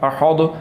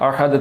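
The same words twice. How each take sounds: First: The final consonant is heavy and full. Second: The final consonant is thin and light. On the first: The speaker calls it wrong. "ये दाद के साथ पढ़ा जा रहा है, ये लफ्ज़ गलत है" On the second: The speaker calls it right. "इसको बारीक पढ़ना है"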